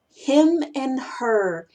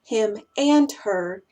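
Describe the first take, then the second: First: "him and her" as "him'n her", slow; reduced "and". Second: "him and her" with a full, stressed "and", slow; weight "him", "and", "her" the same; equal emphasis. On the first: Teacher listing common pairs, slow "him'n her". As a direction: shrink "and" to n between "him" and "her". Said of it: "No es". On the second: Teacher showing what not to do, fully stressed "and". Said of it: "la misma importancia". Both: Shown as a demonstration.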